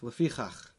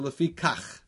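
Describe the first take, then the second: First: The middle consonant is a soft, breathy ch. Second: The middle consonant is a hard, stopped k. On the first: "He said a soft chaf" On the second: "as opposed to"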